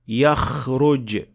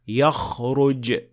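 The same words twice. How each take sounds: First: The kh is exaggerated, snore-like, further forward. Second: The kh comes from deep, near the throat. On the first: The speaker calls it wrong. "exaggerating the sound of kha way too much" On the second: The speaker calls it right. "should be come from much deeper in the mouth"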